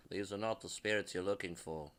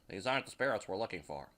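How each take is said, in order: First: A hint of a low, soft Jedi mind trick voice; mock Jedi line to the spirits, softer and lower; Star Wars quote. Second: Said in the usual way. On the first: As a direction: lightly intone it like Obi-Wan waving his hand. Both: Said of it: "another Star Wars reference".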